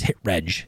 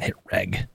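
First: The g is soft, like the j sound. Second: The g is hard, like in get. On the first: The speaker calls it right. "The word's pronounced register, so it's hit reg" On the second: The speaker calls it wrong. "It's not hit reg"

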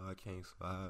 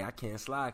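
First: The voice sounds dejected and heartbroken. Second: The voice sounds relaxed and upbeat. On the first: Having the kids feels like a burden. The speaker calls it wrong. "These dudes sound like they heartbroken" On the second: Having the kids is no burden. The speaker calls it right. "I don't sound sad"

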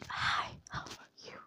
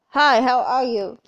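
First: It is said in a quiet whisper. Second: It is said loudly.

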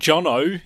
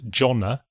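First: The name is said with an Australian accent. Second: The name is said with English pronunciation. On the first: "Or Jono, if you're from Australia" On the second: "and not Jonna"

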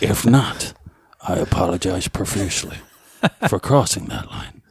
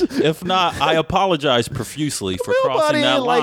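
First: It is read in a put-on dramatic character voice. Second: It is read in the speaker's ordinary voice.

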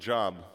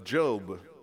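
First: The name sounds like the everyday word job. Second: The name sounds unlike the everyday word job. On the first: The speaker calls it wrong. "Some people pronounce it Job because it's spelt the same" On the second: The speaker calls it right. "but it's Job"

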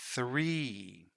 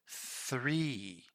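First: The word starts with a 'th' sound. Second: The same.

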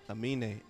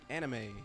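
First: The name is said as a-meen, without an extra syllable. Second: The name is said like the word anime. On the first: This is the real name. The speaker calls it right. "It's A-M-I-N-E" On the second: It is said as a joke. The speaker calls it wrong. "He did as like a joke"

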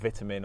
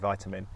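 First: It is said in a British accent. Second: It is said in an American accent.

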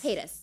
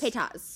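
First: The name is thrown off lightly and casually. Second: The name is said in a more deliberate way. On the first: This is how the name is properly pronounced. The speaker calls it right. "It's Paytas. Like, Paytas, like, just throw it off" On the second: This is how a friend mispronounces the name. The speaker calls it wrong. "He says Paytas"

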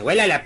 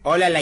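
First: The word begins with a 'we' sound. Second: The word begins with a plain 'o' sound. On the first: The speaker calls it right. "Se dice huélala" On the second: The speaker calls it wrong. "No se dice ólala"

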